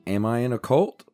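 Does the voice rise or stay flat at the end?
flat. The voice stays flat at the end.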